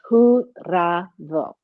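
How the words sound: The name is said with Spanish sounds. "If you're gonna do it with the, you know, the Spanish accents"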